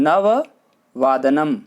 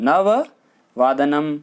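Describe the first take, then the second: No difference in how they are said.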